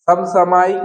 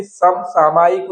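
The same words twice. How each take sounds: First: समसामयिक as "sam-samaayik"; shifted long vowel. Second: Said in the usual way. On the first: Shown as a demonstration. Teacher showing a misspelling, long "maa" in समसामयिक. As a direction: move the long "aa" onto "ma" in समसामयिक. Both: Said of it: "आ का इधर का उधर कर दिया".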